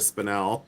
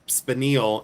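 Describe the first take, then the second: First: Spinel said as "spi-NELL"; spinel with short E. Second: Spinel said as "spi-NEEL", long EE; mispronounced spinel. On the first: Correcting the mispronunciation, spinel as spi-NELL. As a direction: say spinel to rhyme with bell. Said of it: "instead of spinel". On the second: Mocking a way they don't say it, spinel as spi-NEEL. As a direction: say spinel to rhyme with kneel. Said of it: "at least I don't say". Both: Shown as a demonstration.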